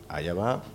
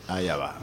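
First: "Allá va" with a rising, questioning end; soft, unsure "Allá va", left hanging upward; doubtful question. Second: Said in the usual way. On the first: Real, not acted. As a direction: turn "Allá va" into a quiet question, pitch lifting on "va". Track not starting, asks doubtfully.

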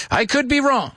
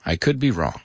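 First: High-pitched playful admission; playful high aside. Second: Low muttered aside. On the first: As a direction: lift it high, lightly self-doubting. Playful repeated self-doubt, high take. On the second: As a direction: drop it down like an afterthought. Same self-doubt, low take. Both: Pretend.

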